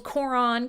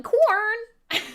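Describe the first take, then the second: First: "Coron" in two syllables, rhyming with moron; name like moron. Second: "Corn" as one high, stretched syllable; one-syllable name. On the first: Streamer owes viewer a drink, two-syllable "Coron". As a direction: say "Coron" with both syllables clear. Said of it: "Coron like moron". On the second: Streamer teases viewer with the name, high one-syllable "Corn". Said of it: "and I could say". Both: Shown as a demonstration.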